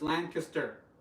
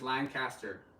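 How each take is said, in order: First: The name is said the way locals say it. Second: The name is said just as it is written. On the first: The speaker calls it right. "they pronounce it as Lancaster. So it's Lancaster" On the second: The speaker calls it wrong. "I pronounce it as Lancaster"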